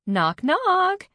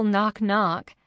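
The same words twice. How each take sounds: First: High, loud sing-out of knock, knock; yelled. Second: Said in the usual way. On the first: A narrator's reading. Alice announces herself in the doorway, yelling. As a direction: call it out loudly from the doorway. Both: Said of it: "You didn't need to yell".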